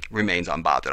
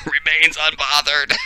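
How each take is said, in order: First: Said in the usual way. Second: Higher, louder words through laughter; laughing. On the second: Real, not acted. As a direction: repeat it while cracking up. Laughs while repeating the meme.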